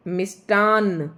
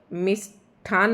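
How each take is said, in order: First: मिष्टान said slowly and louder with an unaspirated ṭ; मिष्टान spelled out loud for students; correct form, slow. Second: मिष्ठान said slowly with an aspirated ṭh, as the error; slow out मिष्ठान with a breathy ṭh; मिष्ठान voiced as the mistake; wrong form. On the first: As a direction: lean on मिष्टान, plain ṭ, slow and firm. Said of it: "अन है ये last में". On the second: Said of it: "मिष्ठान नहीं". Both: Shown as a demonstration.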